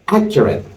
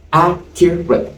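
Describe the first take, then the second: First: Said in the usual way. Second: Accurate said slowly, syllables pulled apart, a bit higher; slow down on Accurate so they hear three beats; slow syllable count. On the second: Shown as a demonstration. Teacher counting the syllables of Accurate slowly for the class. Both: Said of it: "Accurate has how many syllables?".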